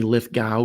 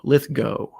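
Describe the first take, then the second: First: The ending does not sound like 'rainbow'. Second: The ending sounds like the end of 'rainbow'. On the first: The speaker calls it wrong. "that's how I said it my whole life" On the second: The speaker calls it right. "apparently it's like rainbow"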